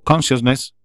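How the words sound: It is said the American way, stressed early. "lo digo en esdrújula porque es como lo dicen los yankees"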